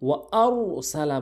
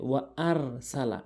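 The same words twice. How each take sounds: First: ওয়া আর সালা with a heavy, rounded r; full ra. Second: ওয়া আর সালা with a thin, light r; thin ra mistake. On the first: Teacher showing how it must be said, heavy আর. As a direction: make the r of আর thick and full. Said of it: "এখানে পুর হবে". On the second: Teacher repeating most people's mistake, thin আর. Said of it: "অধিকাংশ লোক যে ভুলটি করে". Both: Shown as a demonstration.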